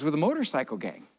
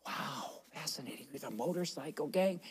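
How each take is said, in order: First: Said in the usual way. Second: Soft, awed group reaction; imitated hushed fascination. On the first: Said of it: "she said". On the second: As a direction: hush it right down in mock awe. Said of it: "and they were all, 'Wow".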